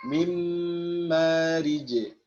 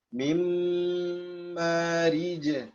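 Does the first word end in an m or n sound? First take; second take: m; m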